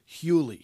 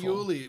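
First: The word begins with an h sound. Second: The word begins without an h sound. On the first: The speaker calls it right. "the hey is not a hey idea. It's not a definite article" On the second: The speaker calls it wrong. "I exposed my own amarotzis here"

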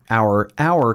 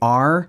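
First: The word sounds like 'hour'. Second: The word sounds like 'are'. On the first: The speaker calls it right. "but it's our if you're talking about our car" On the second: The speaker calls it wrong. "I always say R"

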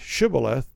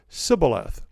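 First: The word begins with an SH sound. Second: The word begins with an S sound. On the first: The speaker belongs to one's own side. "The Gilead guys, they could say shibboleth" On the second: The speaker belongs to the enemy side. "They could not pronounce the SH. it became S"

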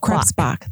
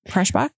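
First: The middle of the name sounds like 'bs'. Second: The middle of the name sounds like 'sh'. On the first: The speaker calls it right. "I always get the B and the S backwards" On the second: The speaker calls it wrong. "I pronounced it Kreshbach"

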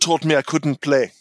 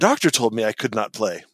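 First: It is said in a put-on German accent. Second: It is said in the speaker's plain accent. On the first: The speaker calls it right. "In a pointless bad German accent" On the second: The speaker calls it wrong. "I didn't do the accent"

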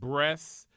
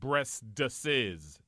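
First: The word is said with one syllable. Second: The word is said with three syllables. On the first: The speaker calls it right. "I know that the word breasts" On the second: The speaker calls it wrong. "is not pronounced breastesses"

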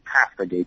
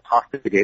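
First: Pasta is said with a Canadian pronunciation. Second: Pasta is said with an American pronunciation.

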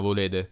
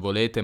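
First: The consonant before the last vowel sounds like d. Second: The consonant before the last vowel is a clear t. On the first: "ma volete" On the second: "non volete"

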